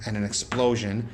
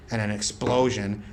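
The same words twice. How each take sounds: The two takes are said the same way.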